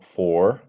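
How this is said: The word ends with an audible R sound. The speaker calls it wrong. "it's not for in British English"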